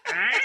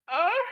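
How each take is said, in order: First: It sounds like a bird's squawk. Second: It sounds like a moan.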